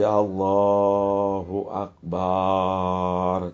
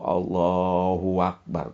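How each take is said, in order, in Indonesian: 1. Vokal setelah b dalam 'akbar' dipanjangkan. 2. Bunyi w disisipkan sebelum 'akbar'. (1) "Jangan lagi dibaca panjang ba-nya" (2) "seolah-olah ada waw"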